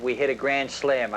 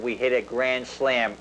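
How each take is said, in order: First: Said in the usual way. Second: "grand slam" said slowly and firmly, each word weighted; slower, stressed repeat. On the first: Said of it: "I could tell by the tone of his voice". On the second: Retold or imitated. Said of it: "do you mean we hit a home run?".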